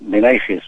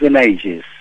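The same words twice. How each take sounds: First: The name is pronounced the Spanish way. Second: The name is pronounced the Catalan way. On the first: "en castellano se puede pronunciar Benaiges" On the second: "en catalán es Benaiges"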